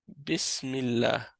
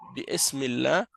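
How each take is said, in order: First: The vowel after 'bi' is dropped entirely. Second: An extra vowel is sounded after 'bi'. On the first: The speaker calls it right. "On dit directement Bismillah" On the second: The speaker calls it wrong. "Mais on prononce pas le alif"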